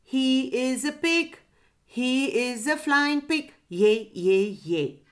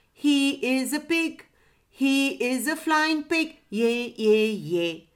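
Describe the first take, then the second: First: Lightly voiced pigeon, high singsong; a hint of a pigeon's coo. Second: Lightly voiced parrot, high singsong; a hint of a parrot's squawk, pitched up. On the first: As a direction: chant it like a mildly cooing pigeon. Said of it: "cooed the pigeon". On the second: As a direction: chant it like a mildly squawking parrot. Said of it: "squawked the parrot". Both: A narrator's reading.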